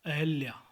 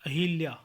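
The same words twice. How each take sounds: First: Said in the usual way. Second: अहिल्या with i in hil; mispronunciation. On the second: Shown as a demonstration. (अहिल्या, ह पर इ) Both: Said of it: "अहिल्या नहीं".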